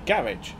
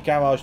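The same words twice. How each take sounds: First: It is said in a less posh British accent. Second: It is said in a posh British accent.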